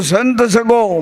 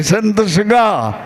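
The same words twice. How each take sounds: First: Says સગો with a final o, the mistaken form; first attempt, સગો ending in o; wrong word sago. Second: સગા said slowly, ending in a, drawn out; the corrected take, સગા with a clear a ending; corrected to saga. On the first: સભા સામે ગુરુએ સુધારેલી ભૂલ: સગો બોલે છે. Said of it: "સંત સગા કયો". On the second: Retold or imitated. ગુરુજીની સુધારણા પછી ધીમે ધીમે સગા કહે છે. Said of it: "સગો નહીં".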